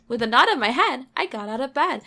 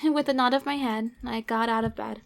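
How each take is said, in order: First: Sing-song rhyme landing on "head" and "bed"; playing up the rhyme. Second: Said in the usual way. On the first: Shown as a demonstration. Reader repeating a line she noticed rhymes, sing-song. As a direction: bounce it loudly, punching "head" and "bed". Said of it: "That rhymes considerably well".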